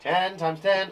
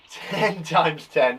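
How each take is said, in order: First: Said in the usual way. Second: Slow, deliberate times-table read; drawn out so pupils can follow; slowly spelled out. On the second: Shown as a demonstration. Teacher reading the question slowly to pupils, slow and deliberate. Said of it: "What's the answer to ten times ten?".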